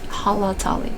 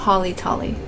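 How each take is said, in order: First: The second vowel sounds like 'ah'. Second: The second vowel sounds like 'ih'. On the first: The speaker calls it right. "there's actually more A's in there than I's" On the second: The speaker calls it wrong. "I usually say Halitali, ... I mispronounce it"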